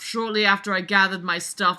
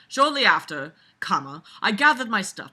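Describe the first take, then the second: First: It runs on with no pause after 'after'. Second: There is a clear break after 'after'. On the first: "do you see why I read it like that? Because he didn't have a comma after shortly after"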